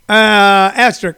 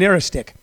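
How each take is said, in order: First: The word is said like 'asterisk', with 'st'. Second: The word is said like 'aristic', without 'st'. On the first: The speaker calls it right. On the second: The speaker calls it wrong.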